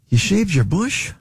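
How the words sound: It sounds disappointed.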